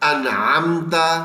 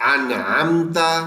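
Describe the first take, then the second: Both takes have the same delivery.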